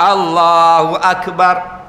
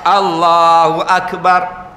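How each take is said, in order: First: A faint vowel slips in after the k. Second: The same.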